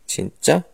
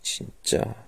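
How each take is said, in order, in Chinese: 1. 这是用怀疑的疑问语气说的。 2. 这是带着无奈的叹气说的。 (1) "真的吗？的意思。" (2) "请加一点叹气，表示真是无语了、词穷了的意思。"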